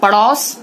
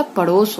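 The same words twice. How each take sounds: First: पड़ोस with open "au", "padaus"; wrong vowel. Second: Said in the usual way. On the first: Shown as a demonstration. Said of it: "पड़ोस नहीं होता". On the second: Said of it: "पड़ोस होता है".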